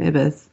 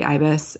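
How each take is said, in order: First: The first vowel is a short 'ih' sound. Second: The first vowel sounds like 'eye'. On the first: The speaker calls it wrong. "I just assumed at some point that this show had called him Ibis" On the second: The speaker calls it right. "somebody pointed out that it should be Ibis"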